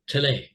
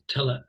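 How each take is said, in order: First: The stress is on the second syllable. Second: The stress is on the first syllable. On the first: The speaker calls it wrong. "That would be a second syllable stress" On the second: The speaker calls it right. "but it's not in English, so it's tele"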